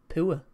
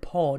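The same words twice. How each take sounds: First: The word sounds different from 'pour'. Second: The word sounds the same as 'pour'. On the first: The speaker calls it right. "because that's how it's said" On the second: The speaker calls it wrong. "You don't say poor, do you? That's a completely different thing. Pour is when you pour a drink"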